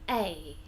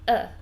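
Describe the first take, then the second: First: It is a full, stressed 'ay' sound. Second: It is a weak, relaxed 'uh' sound. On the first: "only when we want to stress the article" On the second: "instead of a"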